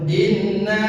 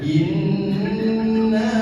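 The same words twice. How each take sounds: First: The n sound is cut short without holding. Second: The n sound is held nasally for two beats. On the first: The speaker calls it wrong. "jangan langsung inna, jangan seperti itu" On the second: The speaker calls it right. "Nun bertasdid, gunnah ditahan. Dua ketuk"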